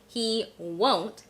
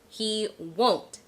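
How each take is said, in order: The two takes are said the same way.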